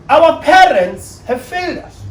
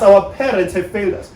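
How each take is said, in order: First: Slow, high, louder stress on every word; slow emphatic. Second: Said in the usual way. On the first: Real, not acted. Speaker stressing to the audience, slow and emphatic. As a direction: lean hard on it so it lands. Emphatic first statement of point.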